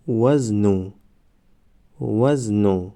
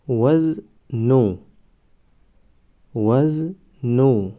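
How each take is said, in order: First: Said in the usual way. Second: وزنو stretched very slowly, syllable by syllable; drawn-out demo. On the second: Shown as a demonstration. Teacher modelling the word for students, very slow. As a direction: draw out وزنو slowly for the class. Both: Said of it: "ما باید همان حرف را فقط آوازش را تلفظ کنیم".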